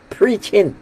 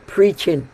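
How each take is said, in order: Both takes have the same delivery.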